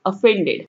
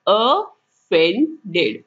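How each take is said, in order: First: Said in the usual way. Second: ऑफेंडेड stretched very slowly, uh-FEN-ded; slow model. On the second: Shown as a demonstration. Teacher modelling the word very slowly. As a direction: drag out ऑफेंडेड syllable by syllable. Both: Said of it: "क्या बोलते हैं इसे?".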